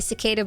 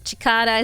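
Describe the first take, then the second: First: The word begins with an s sound. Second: The word begins with a ch sound. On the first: The speaker calls it right. "It's been fixed" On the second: The speaker calls it wrong. "Chicada is over"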